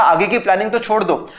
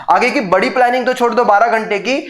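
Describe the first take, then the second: First: Said in the usual way. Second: "बड़ी planning" pushed higher, ending in a rise; emphatic repeat. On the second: Retold or imitated. The mind mocking the student who can't wake, emphatic. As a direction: repeat it higher and more insistent, rising on "की". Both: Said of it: "अंदर से दिमाग बोल रहा है".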